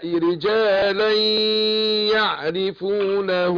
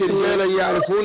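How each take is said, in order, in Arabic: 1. الغنة تُمد حركتين. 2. الغنة بين الكلمتين قصيرة. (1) "برضو عندي اخفاء الميم" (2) "ما اقولش"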